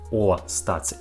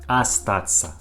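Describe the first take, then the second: First: The first vowel sounds like 'o'. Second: The first vowel sounds like 'a'. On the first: The speaker calls it wrong. "not O, ... it isn't correctly" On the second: The speaker calls it right. "we pronounce this word like A"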